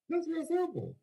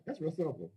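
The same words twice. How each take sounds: First: That's real simple sung out high and stretched; high emphatic repeat. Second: Said in the usual way. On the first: Real, not acted. Pitching the plan to the crowd, high emphatic repeat. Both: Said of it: "repeated higher".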